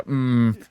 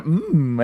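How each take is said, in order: First: A duller imitation moan, kept down; less joyful "mm". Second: Joyful "mm". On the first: Showing co-host the less happy version, subdued "mm". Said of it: "and less of, like". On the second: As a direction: imitate a delighted little moan, pitched up. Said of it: "filled with joy to do it". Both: Shown as a demonstration.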